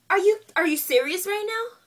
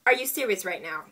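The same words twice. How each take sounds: First: High, loud disbelief, repeating herself; incredulous outburst. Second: Said in the usual way. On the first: Retold or imitated. She confronts the beautician over her matted hair, in loud, high disbelief. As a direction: demand it in disbelief, pitch jumping up.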